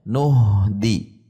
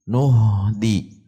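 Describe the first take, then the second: First: The n runs straight into the h. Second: The same.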